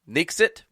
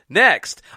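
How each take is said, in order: First: The word is said with two syllables. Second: The word is said with one syllable. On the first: The speaker calls it wrong. "I think is the is the word" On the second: The speaker calls it right.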